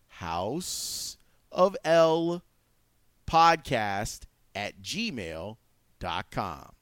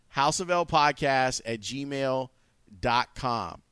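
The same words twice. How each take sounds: First: It is said slowly and deliberately. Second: It is said at normal, quicker speed.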